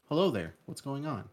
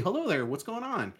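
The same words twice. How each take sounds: First: The voice is flat, with unchanging pitch. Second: The voice is lively, with varied pitch. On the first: The actor is just reading off the page. The speaker calls it wrong. "there's no inflection on the words" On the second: This is how people normally talk. The speaker calls it right. "instead of like"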